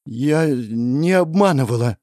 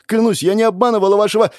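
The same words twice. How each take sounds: First: Slow, forced through pain; struggling to get the words out; strained denial. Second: Fast, higher and louder plea; desperate pleading. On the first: Princess answers the goddess with great effort. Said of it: "с трудом ответила принцесса". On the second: Princess swears to the goddess, frantic and loud. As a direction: rush the denial in panic. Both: Acted.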